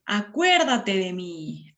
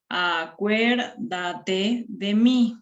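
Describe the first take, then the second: First: Said in the usual way. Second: "Acuérdate de mí" very slow, each syllable separate; syllable-by-syllable demonstration; counting syllables. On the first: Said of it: "Entonces, hemos contabilizado las sílabas". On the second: Shown as a demonstration. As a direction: stretch out A-cuér-da-te de mí for counting. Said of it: "hemos contabilizado las sílabas".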